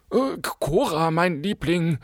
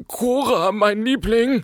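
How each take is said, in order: First: Higher, pressing plea to his wife; urging husband. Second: Much higher, imploring plea; pleading husband. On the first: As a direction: nudge her gently but insistently. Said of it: "drängte ihr Gatte". (drängend zur Ehefrau) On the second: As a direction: beg his wife to stop. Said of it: "flehte der Bankier". (flehend zur Ehefrau) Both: A narrator's reading.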